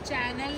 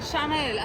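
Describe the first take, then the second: First: The word begins with a 'ch' sound. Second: The word begins with an 'sh' sound. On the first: The speaker calls it wrong. "चॅनल नाही" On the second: The speaker calls it right. "तो शनेल शनेल बघ शनेल असं बोलायचं"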